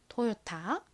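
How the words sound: It is said with a clear t sound. "한국에서는 토요타라고 발음을 하고"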